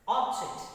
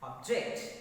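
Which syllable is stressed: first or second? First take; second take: first; second. First: The stress is on the first syllable. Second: The stress is on the second syllable. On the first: The word is a noun. "I use that force on first syllable in my utterance" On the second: The word is a verb. "stress is shifted to second syllable when the words are verbs"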